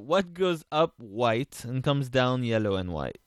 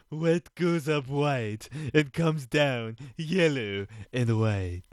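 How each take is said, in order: First: It is asked in a normal speaking voice. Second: It is asked in a put-on character voice. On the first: The speaker calls it wrong. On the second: The speaker calls it right.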